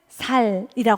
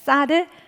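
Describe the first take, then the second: First: The first consonant is a plain s sound. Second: The first consonant is a tense s sound. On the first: The speaker calls it wrong. "쌀을 살이라고 하잖아요" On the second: The speaker calls it right. "우리가 쌀 발음을 잘 못하시는 지역 있잖아요"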